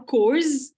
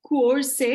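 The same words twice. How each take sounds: First: "course" as one drawn-out syllable with a buzzed ending; "course" said slowly with a z-like ending; alternative misreading. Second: "course" sounded out letter by letter; "course" as a beginner's literal misreading; spelled-out misreading. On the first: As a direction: try "course" as a beginner's second guess. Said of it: "And do I say course". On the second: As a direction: read "course" naively as it is spelled, drawn out. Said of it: "do I say course". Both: Shown as a demonstration.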